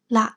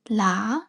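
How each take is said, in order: First: The tone is short and creaky. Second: The tone is low and level. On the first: It means the moon. "short creaky tone" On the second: It means to come. "low or mid tone"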